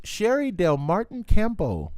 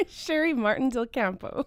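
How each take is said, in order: First: "Sherry Del Martin Campo" with Del before Martin; wrong name order. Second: "Sherry Martin Del Campo" with Martin before Del, laughing; right name order. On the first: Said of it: "Nope, I did it wrong". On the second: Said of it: "There it is". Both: Shown as a demonstration.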